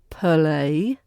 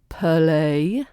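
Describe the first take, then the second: The two takes are said the same way.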